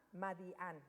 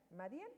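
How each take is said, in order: First: MADIÁN with the accent on the last A, falling; stress on final A. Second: MADIÁN as a tentative rising question; unsure pronunciation. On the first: Shown as a demonstration. Teacher showing the city's name, MADIÁN stressed on its final A. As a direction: land firmly on the AN of MADIÁN, pitch dropping. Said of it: "con acento en la A". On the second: Real, not acted. Teller unsure how the city is pronounced, MADIÁN as a rising question. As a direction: try out MADIÁN with a questioning lift at the end. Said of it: "no sé cómo se pronuncia".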